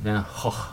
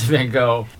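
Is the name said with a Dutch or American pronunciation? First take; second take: Dutch; American. First: The name has guttural Dutch G sounds. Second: The name has a plain American pronunciation. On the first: This is how the painter himself would have said it. "the way Van Gogh would have said it" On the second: This follows the usual American convention. "so we just go with the American convention"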